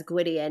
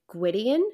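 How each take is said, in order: First: Said in the usual way. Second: Gwydion? asked with a rising, startled lift; startled question. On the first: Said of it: "like, says". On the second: Retold or imitated. Amren spots the sword and asks Gwydion, startled. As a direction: recognise the sword, mildly startled. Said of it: "looks at it and startles".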